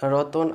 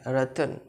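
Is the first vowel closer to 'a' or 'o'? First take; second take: o; a. First: The first vowel sounds like 'o'. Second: The first vowel sounds like 'a'. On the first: This is how Bengali speakers say it. The speaker calls it wrong. "র তদন্তন আমরা কি বলবো" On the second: This is how Hindi speakers say it. The speaker calls it right. "বলবো নাই"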